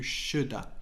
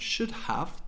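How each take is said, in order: First: The word 'have' becomes a short 'a'. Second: The word 'have' is said in full. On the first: "to shoulda" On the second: "from should have"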